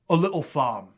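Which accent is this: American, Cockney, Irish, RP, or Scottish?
Cockney. It is spoken in a Cockney accent. "and Cockney"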